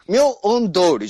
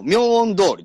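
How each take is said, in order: First: 明恩通り broken into parts; 明恩通り stretched with a dip between parts; rejected intonation. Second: 明恩通り said straight through; 明恩通り evenly, without breaking it up; straight intonation. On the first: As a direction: split 明恩 from 通り. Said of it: "じゃないの". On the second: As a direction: run 明恩通り as one level line. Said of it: "まっすぐだよ". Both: Shown as a demonstration.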